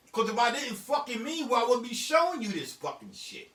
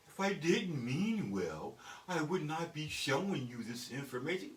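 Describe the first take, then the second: First: Said in the usual way. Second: Slow, carefully enunciated formal phrasing; softer, measured parody of proper English; mock proper talk. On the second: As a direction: spell it out politely, word by word. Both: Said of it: "I don't fucking talk like that".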